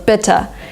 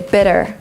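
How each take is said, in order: First: The middle T is a crisp T sound. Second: The middle T sounds like a quick D. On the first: This is how it is said in Britain. "it sounds a little British, so in Great Britain they would say still bitte" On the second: This is how it is said in America. "In American English they would say bitter"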